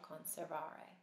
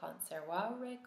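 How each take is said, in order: First: The V is sounded like an English v. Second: The V is sounded like an English w. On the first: This is the ecclesiastical pronunciation. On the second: This is the classical pronunciation.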